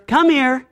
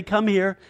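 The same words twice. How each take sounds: First: A hint of a parent calling, pitched up; higher, brief call to a small child; parent calling toddler. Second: Lightly voiced God, an understated call; soft-edged, restrained summons. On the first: Parent summoning a toddler, lightly acted higher call. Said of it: "You ever say to your toddler". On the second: God calling toddler-like people, understated call. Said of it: "God would say".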